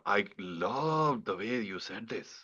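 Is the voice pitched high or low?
low. The voice is pitched lower throughout.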